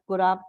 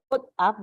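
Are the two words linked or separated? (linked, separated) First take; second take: linked; separated. First: The two words are linked together. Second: The two words are said separately. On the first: The speaker calls it right. "just like gliding" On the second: The speaker calls it wrong. "Not put up"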